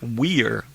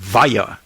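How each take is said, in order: First: The name is said with an American pronunciation. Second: The name is said with a German pronunciation.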